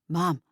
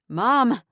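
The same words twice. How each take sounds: First: It is said at normal volume. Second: It is said in a raised voice.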